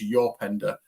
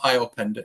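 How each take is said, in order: First: The name begins with a 'y' sound. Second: The name begins with a plain vowel sound. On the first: The speaker calls it right. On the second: The speaker calls it wrong. "it's not"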